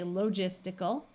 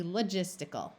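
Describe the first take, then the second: First: Logistical with a full long O in the first syllable; long O variant. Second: Logistical with the O reduced to "luh"; schwa in first syllable. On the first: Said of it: "some people might say". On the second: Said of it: "this will tend to schwa". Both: Shown as a demonstration.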